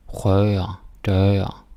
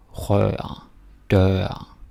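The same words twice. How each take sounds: The two takes are said the same way.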